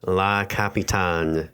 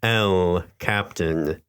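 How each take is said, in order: First: La Capitan drawn out slowly, Spanish-style; attempted Spanish. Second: El Captain said slowly, in two separated words; slow, deliberate correction with English Captain after El; correcting. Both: A narrator's reading. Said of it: "he corrected her".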